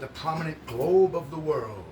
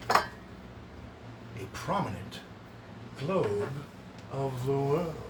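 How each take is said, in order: First: Said in the usual way. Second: "A prominent globe of the world" drawn out very slowly, paused after "prominent" and "globe"; pointed repetition. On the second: Shown as a demonstration. Repeats phrase slowly for effect.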